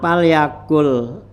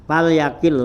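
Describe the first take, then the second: First: The last syllable has the vowel u. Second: The last syllable has the vowel i. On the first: The speaker calls it wrong. "bukan palyakul" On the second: The speaker calls it right. "palyakil lah ya"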